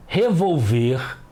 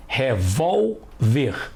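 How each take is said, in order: First: "revolver" slowly, stressed on the end, re-vol-VER; wrong-stress demonstration. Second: "revólver" very slowly as re-VÓL, pause, ver; separated syllables. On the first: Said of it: "Não é assim que costumamos falar". ("revolver" devagar, com a última sílaba forte) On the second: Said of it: "Vamos separar as sílabas". ("revólver" bem devagar, em sílabas, VÓL forte) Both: Shown as a demonstration.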